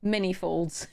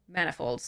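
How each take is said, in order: First: The first part sounds like 'many'. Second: The first part sounds like 'man'. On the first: The speaker calls it wrong. "not uh, many folds" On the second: The speaker calls it right. "are definitely manifolds"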